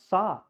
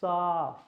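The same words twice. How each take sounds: First: The vowel is clipped short. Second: The vowel is held and stretched out. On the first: The speaker calls it wrong. "it's not sa" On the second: The speaker calls it right. "it's sa. It's like sa. That's the actual sound"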